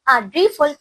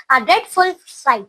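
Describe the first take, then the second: First: Said in the usual way. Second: "a dreadful sight" spelled out very slowly, each word drawn out; slowed dictation. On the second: Shown as a demonstration. Teacher slowly dictating "a dreadful sight" to students.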